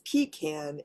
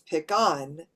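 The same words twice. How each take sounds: First: It uses the East Coast regional pronunciation. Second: It uses the Southern regional pronunciation. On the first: "East Coast is pecan" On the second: "In the South, it's pecan"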